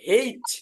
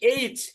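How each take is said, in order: First: The name starts with an h sound. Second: The name starts with a vowel, no h sound. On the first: "হ একার, হেইচ" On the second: "শুদ্ধ উচ্চারণ করেছেন এইচ"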